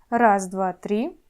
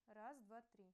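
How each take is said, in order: First: The voice is loud with the background noise removed. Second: The voice is recorded at a very low level. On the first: "после удаления шума" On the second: "при использовании петлички сигнал получается совсем слабым"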